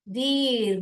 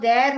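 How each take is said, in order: First: The vowel sounds like 'ee'. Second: The vowel sounds like 'air'. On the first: The speaker calls it wrong. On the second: The speaker calls it right.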